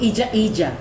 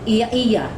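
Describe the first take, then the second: First: The middle consonant is a j sound. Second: The middle consonant is a y sound. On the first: This is the Bohol way of saying it. "But in Bohol, ... The Y will become J in the in Bohol" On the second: This is the Cebu way of saying it. "in Cebu, it is uh"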